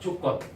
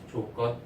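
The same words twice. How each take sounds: First: The first consonant is said hard and tense. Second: The first consonant is said soft and plain. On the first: The speaker calls it wrong. "조건 할 때 발음 세게 하지 말자" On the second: The speaker calls it right. "조건 하자"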